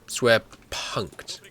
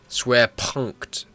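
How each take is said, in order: No difference in how they are said.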